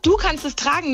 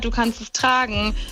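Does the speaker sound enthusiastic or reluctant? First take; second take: enthusiastic; reluctant. First: It is said in a warm, enthusiastic tone. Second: It is said in a hesitant, reluctant tone. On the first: The haircut really looks good. "ey, guck mal, du kannst es tragen, das steht dir richtig gut" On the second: The haircut does not really look good. "Da fühlt man quasi, was der Friseur denkt und das ist halt kacke"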